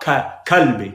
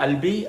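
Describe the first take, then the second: First: The word begins with a k sound. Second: The word begins with a vowel sound. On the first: "someone's saying Kalbi with a ka" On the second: "I've always learned"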